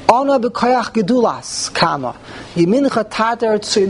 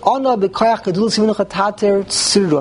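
First: It breaks once, after gedulas. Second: It is read straight through without a break.

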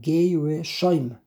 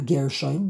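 First: A short vowel is heard between the g and r. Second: The g and r are run together without a vowel. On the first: The speaker calls it right. "the resh is a shvana" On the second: The speaker calls it wrong. "Not Gershoim, that's wrong"

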